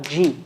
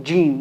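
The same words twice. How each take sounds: First: Jeem softened to zheem, quieter and lower; mock the slurred zheem; wrong jeem. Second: Jeem with the middle of the tongue on the palate, slow; correct jeem. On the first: Teacher shows mistaken soft jeem, quietly. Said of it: "not jeem". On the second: Teacher models correct jeem, slowly. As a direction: press mid-tongue up for jeem. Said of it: "Here becomes saying jeem". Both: Shown as a demonstration.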